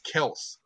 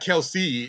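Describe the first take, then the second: First: The name is said as one syllable. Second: The name is said as two syllables. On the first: The speaker calls it right. "the way that you pronounce it is actually Kels" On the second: The speaker calls it wrong. "It's not Kelce"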